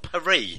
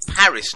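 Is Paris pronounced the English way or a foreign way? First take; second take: foreign; English. First: The name is said with a foreign pronunciation. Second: The name is said with an English pronunciation. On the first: The speaker calls it wrong. "not Paris" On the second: The speaker calls it right. "It's David if you're English, and it's bloody Paris"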